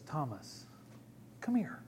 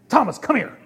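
First: The voice sounds gentle and understanding. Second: The voice sounds upset and impatient.

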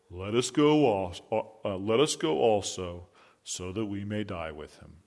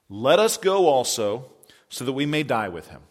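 First: It is said in a gloomy Eeyore voice. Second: It is said in a plain reading voice.

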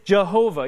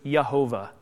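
First: The name begins with a J sound. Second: The name begins with a Y sound. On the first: This is the usual English pronunciation. "In English, we tend to translate it as Yahweh or Jehovah" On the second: This is the original Hebrew pronunciation. "the J is silent in Hebrew, so it's Yehovah"

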